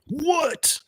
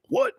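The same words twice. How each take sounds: First: Very high, stunned disbelieving what; incredulous squeak. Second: Said in the usual way. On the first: Retold or imitated. Recalling hearing the deadly door news, stunned high disbelief.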